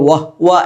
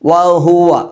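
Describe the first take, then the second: First: The h has no vowel after it. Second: The h is followed by a u vowel. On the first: The speaker calls it wrong. "ഹ ഇന് സുക്കൂനായിട്ട്" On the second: The speaker calls it right. "ഹ ഇന് ലൊമ്മാണ്"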